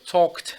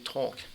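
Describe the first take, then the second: First: The final t sound is clearly pronounced. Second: The final t sound is left off. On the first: The speaker calls it right. "pronounce the last syllable or sound of each word" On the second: The speaker calls it wrong. "don't just say talk"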